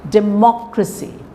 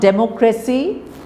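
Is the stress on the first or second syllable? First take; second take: second; first. First: The stress falls on the second syllable. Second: The stress falls on the first syllable. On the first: The speaker calls it right. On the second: The speaker calls it wrong.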